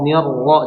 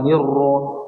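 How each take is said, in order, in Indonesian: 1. Huruf 'r' yang tebal disuarakan tanpa memonyongkan bibir. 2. Bibir dimonyongkan dan dibulatkan pada 'ro'.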